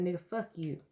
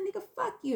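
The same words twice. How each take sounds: First: Said in the usual way. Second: Much higher, defiant curse; high defiant cry. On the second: Retold or imitated. Shouting down her boyfriend, very high. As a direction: fling it at him, pitched way up.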